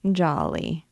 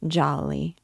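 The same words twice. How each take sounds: First: Fond murmur to her pet goat; tender repeating. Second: Gentle murmur to her goat; tender repeating. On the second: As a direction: murmur the name fondly to the goat. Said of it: "she began to fondle the pretty creature, repeating". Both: A narrator's reading.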